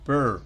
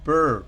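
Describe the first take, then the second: Both takes have the same delivery.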